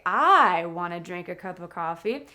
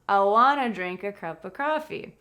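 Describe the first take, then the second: First: The opening word 'I' is stressed. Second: The opening word 'I' is unstressed. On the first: The speaker calls it wrong. "Notice that the subject, I, is not stressed. I don't say" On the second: The speaker calls it right. "I say"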